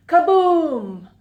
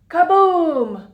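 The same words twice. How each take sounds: The two takes are said the same way.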